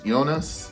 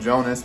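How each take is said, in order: First: The name begins with a Y sound. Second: The name begins with a J sound. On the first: "I guess it's Jonas. J sounds like a Y" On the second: "it's spelled Jonas"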